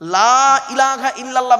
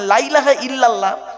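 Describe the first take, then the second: First: The vowel in 'la' is drawn out long. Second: The vowel in 'la' is clipped short. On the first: There is no god except God. The speaker calls it right. "লয়াকারে টান দেবেন" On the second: There certainly is a god besides God. The speaker calls it wrong. "লয়াকারে টান না দিলে কিরম মানেটা পাল্টে যায়"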